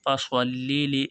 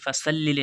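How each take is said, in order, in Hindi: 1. s ध्वनि भारी है, मुँह भरा हुआ। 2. s ध्वनि हल्की और पतली है। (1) "स्वाद है, मोटा मुंह होगा" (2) "फसल्लि नहीं पढ़ना है"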